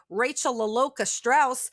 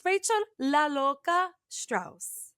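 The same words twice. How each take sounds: First: Rachel La Loca Strauss said flat and American, la LOH-kuh; anglicized La Loca. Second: Rachel La Loca Strauss said slow, La Loca with crisp Spanish vowels. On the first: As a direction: say La Loca the English way. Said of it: "I could easily say". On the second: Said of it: "I do say La Loca with intent". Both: Shown as a demonstration.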